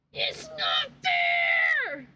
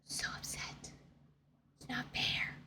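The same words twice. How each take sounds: First: Real frustrated yell; shouted complaint. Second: Soft unvoiced whisper of It's not fair; whispered sulk; whispered complaint. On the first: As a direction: wail it out to the ceiling. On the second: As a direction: breathe it out like a sulking secret. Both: Real, not acted. Whisper then shout contrast.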